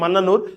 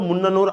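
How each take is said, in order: First: The first vowel sounds like 'a'. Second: The first vowel sounds like 'u'.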